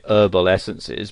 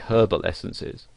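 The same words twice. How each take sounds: First: It has an American accent with a silent H. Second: It has a British accent with a pronounced H.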